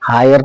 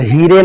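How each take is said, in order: First: The vowel sounds like 'eye', ending in 'er'. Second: The vowel sounds like 'ee', with a final 're'. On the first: The speaker calls it right. "हायर पढ़ना है" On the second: The speaker calls it wrong. "हीरे नहीं पढ़ना है"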